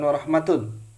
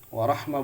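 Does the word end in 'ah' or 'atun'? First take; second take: atun; ah. First: The word ends with a full 'atun' ending. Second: The word ends with a short 'ah' sound. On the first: The speaker calls it wrong. "bukan warahmatun" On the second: The speaker calls it right. "warahmah bukan warahmatun"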